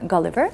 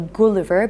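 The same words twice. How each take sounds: First: It is said with the English pronunciation. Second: It is said the way Georgians usually say it. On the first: The speaker calls it right. "correct pronunciation of this name is Gulliver" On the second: The speaker calls it wrong. "in Georgia, we usually say Gulliver"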